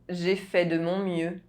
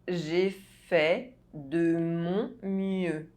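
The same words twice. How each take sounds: First: The sentence is spoken at normal speed. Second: The sentence is spoken slowly. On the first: "I'll say it again at a normal pace" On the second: "you listen to the phrase in slow French"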